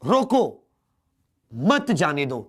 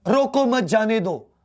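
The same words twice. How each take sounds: First: रोको as a command, short pause, then मत जाने दो; comma pause after रोको. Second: Said in the usual way. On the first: Shown as a demonstration. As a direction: give the order रोको, brief stop, मत जाने दो. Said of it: "थोड़ी देर के लिए रुकना है". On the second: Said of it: "कहीं भी विराम चिन्ह का इस्तेमाल नहीं करा".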